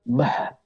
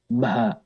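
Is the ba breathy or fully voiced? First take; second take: breathy; breathy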